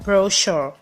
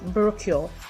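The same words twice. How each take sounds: First: The middle consonant is an 'sh' sound. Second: The middle consonant is a 'ch' sound. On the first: The speaker calls it right. "The C H in that word is sh sound" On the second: The speaker calls it wrong. "So the word isn't brochure"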